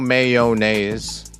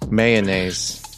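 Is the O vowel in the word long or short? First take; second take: long; short. First: The O vowel is long and drawn out. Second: The O vowel is short or reduced.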